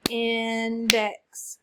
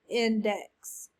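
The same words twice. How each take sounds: First: Index in two beats, long in, then dex; clapped syllables. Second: Said in the usual way. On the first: Shown as a demonstration. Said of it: "Clap it". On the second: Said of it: "What's the word?".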